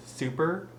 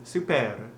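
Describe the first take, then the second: First: Said in the usual way. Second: SUPER with a French "-air" ending and rolled R; French-accented SUPER. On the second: Shown as a demonstration. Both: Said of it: "super in a French accent".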